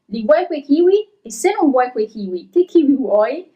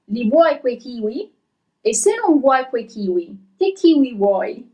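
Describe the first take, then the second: First: The sentence is read at a fast pace. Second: The sentence is read at a slow pace. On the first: "I'm gonna read it a little bit faster" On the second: "I'm gonna read a little bit slower at first"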